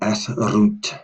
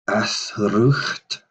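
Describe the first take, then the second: First: The word ends in a plain t sound. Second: A rough h sound comes before the final t. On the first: The speaker calls it right. "There's no H in there" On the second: The speaker calls it wrong. "My apologies for doing that earlier"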